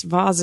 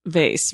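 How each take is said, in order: First: "Vase" as vahz, rhyming with Oz; vahz pronunciation. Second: "Vase" rhyming with face; vayss pronunciation. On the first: Guest quoting the rejected option, "Vase" as vahz. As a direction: say "Vase" with broad A and z. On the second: Guest answering the quiz, "Vase" as vayss. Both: Shown as a demonstration. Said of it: "Vase is ridiculous".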